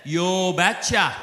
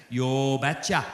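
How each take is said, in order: First: Slow, drawn-out Norwegian "Yo betcha"; Norwegian accent. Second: Low Norwegian father's "Yo betcha"; "Yo betcha" in a heavy Norwegian lilt; thick Norwegian accent. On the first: Norwegian father agreeing to pay the deal, in a slow Norwegian accent. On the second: Norwegian father agreeing to the marriage, in a thick Norwegian accent. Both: Retold or imitated. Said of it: "in his thick Norwegian accent".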